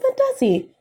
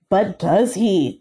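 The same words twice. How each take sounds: First: It is said in a plain, casual way. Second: It is said in a dramatic, announcing way. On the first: The speaker calls it wrong. "You can't be like" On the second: The speaker calls it right. "Like, it's announced"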